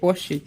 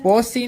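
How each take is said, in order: First: The middle consonant is an sh sound. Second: The middle consonant is a plain s sound. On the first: The speaker calls it right. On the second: The speaker calls it wrong. "પોસી નહીં"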